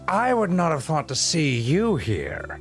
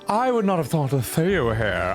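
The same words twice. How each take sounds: First: It is said in a dramatic villain voice. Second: It is said in a casual everyday voice.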